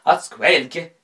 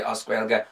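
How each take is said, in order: First: Oscuelga pushed high and very loud; exaggerated OSCUELGA. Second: Said in the usual way. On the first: Shown as a demonstration. Host mocking those who say it, Oscuelga exaggerated, high and loud. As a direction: belt out "Oscuelga" on a raised pitch. Mocking repeat of an Irish term.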